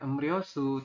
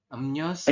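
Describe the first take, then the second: First: The middle syllable begins with an R sound. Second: The middle syllable begins with an N sound. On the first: The speaker calls it wrong. "bukan em Ryosu" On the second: The speaker calls it right. "tapi berubah menjadi em nyo em nyosu"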